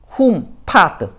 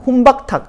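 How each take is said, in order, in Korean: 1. 끝 부분은 'phat'으로 발음해요. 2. 끝 부분은 'baktak'으로 발음해요. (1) "범어로 정확하게 외워야 돼요" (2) "이두식 발음이 뭐예요? 잘못된 발음이지"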